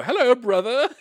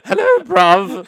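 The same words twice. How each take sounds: First: High, loud proper hello; posh greeting. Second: Slow, loud, high London accent; London bruv. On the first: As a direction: greet him far too properly. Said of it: "I would go". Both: Shown as a demonstration.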